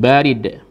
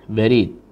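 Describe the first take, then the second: First: The first vowel is drawn out long. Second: The second vowel is drawn out long. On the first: It means cold. "barid itu dingin ya. Ini tulisannya baridun, banyak panjang" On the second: It means mail or a mailbox. "tapi pos atau kotak pos"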